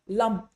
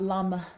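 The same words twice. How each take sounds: First: The final consonant stops cleanly with nothing added. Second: Extra air or a vowel follows the final consonant. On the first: The speaker calls it right. "We do not add extra air, we do not add extra vowels" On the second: The speaker calls it wrong.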